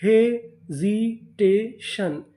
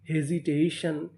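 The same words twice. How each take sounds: First: Very slow, syllables drawn out; teacher sounding out the new word slowly; slow spelled-out reading. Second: Said in the usual way. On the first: Shown as a demonstration. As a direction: stretch the word out for learners. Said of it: "तो meaning क्या बनी?".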